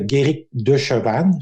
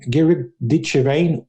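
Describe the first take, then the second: First: The name is pronounced the French way. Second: The name is pronounced the English way.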